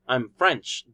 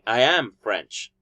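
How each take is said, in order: First: The verb is contracted and unstressed. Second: The verb is said in full and emphasized. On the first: It is a neutral statement. "in a normal way, it will be I'm French" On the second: The speaker is insisting on the fact. "he's doing a strong form in am because he is doing an emphasis"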